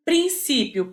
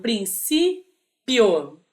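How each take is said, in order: First: Said in the usual way. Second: "princípio" stretched out syllable by syllable, prin-cí-pio; slowly syllabified. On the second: Shown as a demonstration. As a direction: split "princípio" into slow syllables for the class.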